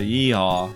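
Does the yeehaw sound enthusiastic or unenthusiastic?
unenthusiastic. It is said flatly without enthusiasm.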